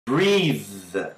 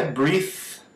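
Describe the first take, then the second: First: "breathe" lower, ending on a long buzz; correct vibrating TH. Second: "breathe" ending voiceless, as "breeth"; hissed TH closing "breathe"; wrong "breathe" with no buzz at the end; unvibrated TH. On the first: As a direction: hold the voiced TH closing "breathe". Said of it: "É breathe". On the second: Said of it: "Não é". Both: Shown as a demonstration.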